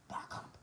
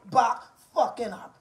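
First: Barely audible whisper; hushed, voiceless warning. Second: "Back fucking up" in full voice, word by word; firm, spaced-out "Back fucking up"; emphatic warning. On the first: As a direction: whisper it under your breath as a warning. Warning rival, dropped to whisper. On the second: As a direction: say "Back fucking up" aloud, each word set apart. Warning repeated aloud after whisper. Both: Real, not acted.

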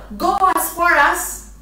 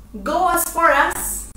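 Both takes have the same delivery.

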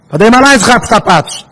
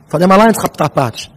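First: Raised, higher-pitched exclamation; emphatic admonition. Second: Said in the usual way. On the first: Real, not acted. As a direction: repeat it forcefully to drive the warning home. Louder repeat of admonition.

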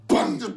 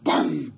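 First: A high, loud bang. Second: A low, heavy bang. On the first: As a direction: jump the word up high. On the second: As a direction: drop the word low and dark. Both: Acted. Variations on one word.

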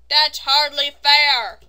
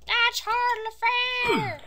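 First: Slow, loud drawn-out protest; loud complaint. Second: Slow, loud, very high wail; high whiny protest. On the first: Real, not acted. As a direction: protest loudly, stretching each word. Complains at the game. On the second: Pretend. Repeats complaint in higher voice.

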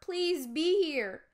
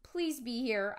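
First: Higher, louder, slow desperate plea; pleading. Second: Said in the usual way. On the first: Acted. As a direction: beg the empty room. Pleading for parents to be home. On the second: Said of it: "I thought".

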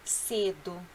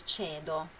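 First: Cedo said the Portuguese way as sedo, with an s sound; Portuguese reading. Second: Cedo said the Italian way as chedo, with a ch sound; Italian reading. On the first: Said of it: "Leia em português". (cedo lido em português, com s: sedo) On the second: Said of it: "O que que é cedo?". (cedo lido em italiano, com tch: tchedo) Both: Shown as a demonstration.

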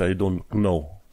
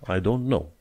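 First: "know" with the K sounded; wrong pronunciation. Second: "know" with a silent K; correct pronunciation. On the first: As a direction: say "know" as "k-now". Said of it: "nu pronunți I don't know". ("know" cu K pronunțat, greșit) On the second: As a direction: say "know" as plain "no". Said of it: "Fără acel K". ("know" fără K) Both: Shown as a demonstration.

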